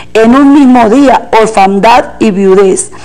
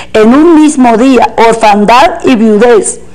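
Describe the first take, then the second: Both takes have the same delivery.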